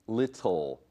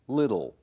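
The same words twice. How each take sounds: First: The t is clearly pronounced before the ending. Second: The t is nearly silent before the ending. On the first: The speaker calls it wrong. "It's not bottle, little" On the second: The speaker calls it right. "这些字的 t 它几乎都是听不到的"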